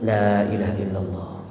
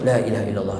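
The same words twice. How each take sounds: First: It is said slowly and calmly. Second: It is said quickly and hurriedly.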